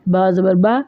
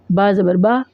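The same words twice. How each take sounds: The two takes are said the same way.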